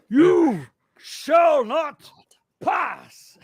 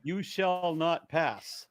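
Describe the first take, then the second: First: It is said in a Gandalf impression. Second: It is said in his normal voice.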